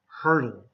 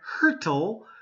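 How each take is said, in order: First: It is said with a D sound. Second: It is said with a T sound.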